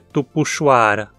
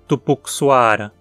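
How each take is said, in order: First: The x is pronounced as a 'sh' sound. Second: The x is pronounced as a 'ks' sound. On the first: The speaker calls it right. "O x em tupi soa sempre como sh" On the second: The speaker calls it wrong. "Não podemos dizer tupuxuara"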